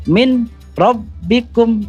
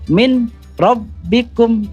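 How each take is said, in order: First: The n is kept before the following r. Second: The n is kept before the following r.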